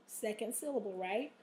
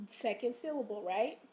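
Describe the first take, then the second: No difference in how they are said.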